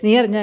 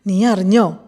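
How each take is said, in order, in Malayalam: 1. ഇത് ഇടവേളയില്ലാതെ നേരെ പറയുന്നു. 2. ഇത് സാവധാനം, സസ്പെൻസ് നിറഞ്ഞ ഇടവേളയോടെ പറയുന്നു. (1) "അങ്ങനെ തന്നെ അങ്ങനെ നേരെ പറഞ്ഞുകൊണ്ട് പോയാൽ" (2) "അങ്ങനെ പറഞ്ഞിട്ടൊരു സസ്പെൻസ് ഇട്ട് കഴിഞ്ഞാൽ"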